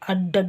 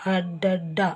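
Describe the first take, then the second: First: The final d sound is short and single. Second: The final d sound is long and doubled. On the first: The speaker calls it wrong. "ಅಡ್ಡಡ ಅಲ್ಲ" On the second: The speaker calls it right. "ಅಡ್ಡಡ್ಡ ಅಂತಲೇ ಓದಬೇಕು"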